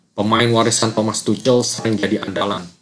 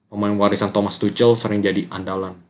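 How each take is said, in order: No difference in how they are said.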